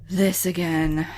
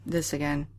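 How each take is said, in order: First: "This again", exasperated, leaning on This; stress on This. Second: Said in the usual way. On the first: Real, not acted. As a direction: hit This in "This again".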